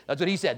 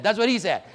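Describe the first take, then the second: First: Said in the usual way. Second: Louder, insisting on "he"; emphatic repeat. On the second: Shown as a demonstration. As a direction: press the point that "he" said it. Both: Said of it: "Just telling you what he said".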